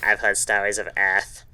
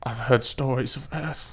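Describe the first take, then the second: First: Voz de puberdade desajeitada, imitando o Jaden; awkward puberty voice. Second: Awkward puberty voice. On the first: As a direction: repeat the line in an awkward teen voice. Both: Retold or imitated. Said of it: "in his extremely awkward puberty voice".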